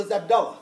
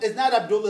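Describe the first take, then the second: First: Abdullah said as ab-DAL-la; insisted-on a form. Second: Abdullah with an "oo" in the middle. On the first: Retold or imitated. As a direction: open middle vowel in Abdullah, no "oo". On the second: Shown as a demonstration. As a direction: say Abdullah as ab-DOOL-la.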